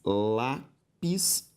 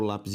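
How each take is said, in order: First: "lápis" very slowly split as lá, pis; long pause inside "lápis"; syllable by syllable. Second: Said in the usual way. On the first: Shown as a demonstration. Teacher separating the word for students, syllable by syllable. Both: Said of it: "se eu separo lápis e país".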